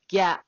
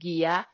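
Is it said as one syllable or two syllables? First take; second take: one syllable; two syllables. First: It is said as one blended syllable. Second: It is said as two separate syllables. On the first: The speaker calls it right. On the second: The speaker calls it wrong.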